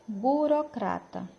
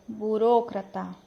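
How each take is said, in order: First: Burocrata with a reduced final a; Portuguese pronunciation. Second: Burocrata with a full final a; Spanish burocrata, crisp last a; Spanish pronunciation. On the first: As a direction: Brazilian burocrata, weak last vowel. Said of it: "Português". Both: Shown as a demonstration.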